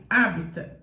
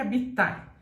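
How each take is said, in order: First: The stress is on the first syllable. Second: The stress is not on the first syllable. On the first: The speaker calls it right. "com o A forte como proparoxítona" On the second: The speaker calls it wrong. "Não fale habitar"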